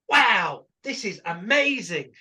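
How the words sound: It is said with excitement.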